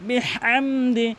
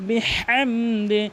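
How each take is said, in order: No difference in how they are said.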